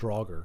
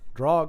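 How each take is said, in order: First: The word ends with an audible R sound. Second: The word ends without any R sound.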